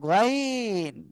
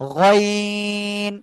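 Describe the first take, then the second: First: It is said plainly, without a heavy throaty sound. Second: It comes from deep in the throat, heavy, drawn out. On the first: The speaker calls it wrong. "গাইন না কিন্তু" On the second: The speaker calls it right. "গলার শেষ ভাগ থেকে মোটা আওয়াজে তিন আলিফ টানিয়া উচ্চারণ করব"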